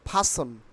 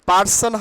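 First: The first p has a strong puff of air. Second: The first p is plain, without a puff of air. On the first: The speaker calls it right. "কি হবে? ফাসন" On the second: The speaker calls it wrong. "পার্সন হবে না"

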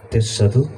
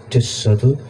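The two takes are said the same way.

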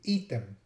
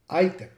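First: The first vowel is a long, held 'ee' sound. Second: The first vowel is an 'eye' sound. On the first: "in Latin, it would be pronounced item, right? The I would be long. It just means I pronounce it a little longer" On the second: "in English, it became item"

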